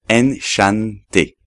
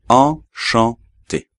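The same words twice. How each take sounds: First: A separate n consonant is pronounced after the vowel. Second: The vowel is nasal with no separate n. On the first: The speaker calls it wrong. "Sobre todo, no decir enchanté" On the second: The speaker calls it right. "pero enchanté"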